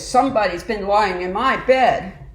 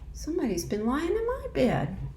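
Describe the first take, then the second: First: It is said in a big, deep voice. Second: It is said in a medium-sized voice. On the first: A large bear is speaking. "said in his great big voice" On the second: A middle-sized bear is speaking. "said in her middle-sized voice"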